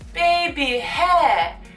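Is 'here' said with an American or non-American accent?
non-American. The word here has a non-American pronunciation. The speaker calls it wrong.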